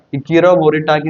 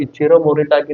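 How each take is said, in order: First: ഇച്ചിറോ said with a hard K, as "Ikiro"; K variant. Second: ഇച്ചിറോ said with a CH, as "Ichiro"; CH variant. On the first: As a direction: put a K sound for the CH in ഇച്ചിറോ. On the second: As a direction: pronounce ഇച്ചിറോ as "ee-chee-ro". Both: Shown as a demonstration. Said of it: "pronounce ചെയ്യാം".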